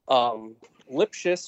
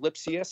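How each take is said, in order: First: The name ends with a 'shits' sound. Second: The name ends with a 'see-us' sound. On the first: This is the pronunciation the hosts use. "we pronounce it Lipschitz" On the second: This is the pronunciation everyone else uses. "everyone else... says Lipsius"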